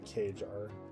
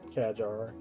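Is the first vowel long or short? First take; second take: long; short. First: The first vowel is a long a. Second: The first vowel is a short a. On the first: The speaker calls it wrong. "not Kajar" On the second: The speaker calls it right. "so short. It's a short A then"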